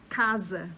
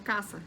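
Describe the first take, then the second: First: The middle consonant is a buzzing z sound. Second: The middle consonant is a hissing s sound. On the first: The speaker calls it right. "se eu vou falar casa" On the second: The speaker calls it wrong. "quando eu falo rápido eu falo caça. E tá errado"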